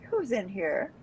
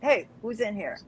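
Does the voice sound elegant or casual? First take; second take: elegant; casual. First: It is said in an elegant, refined voice. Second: It is said in a casual, unrefined voice.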